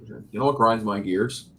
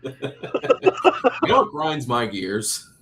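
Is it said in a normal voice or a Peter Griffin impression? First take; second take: normal voice; Peter Griffin. First: It is said in his normal voice. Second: It is said in a Peter Griffin voice.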